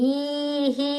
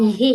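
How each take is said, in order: First: The final vowel is drawn out long. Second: The final vowel is kept short. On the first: The speaker calls it wrong. "ఈహీ అంటున్నామా? లేదు" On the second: The speaker calls it right. "దీర్ఘాలు రావక్కడ"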